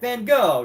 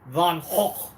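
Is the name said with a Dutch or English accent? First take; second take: English; Dutch. First: The name is said the English way. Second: The name is said the Dutch way.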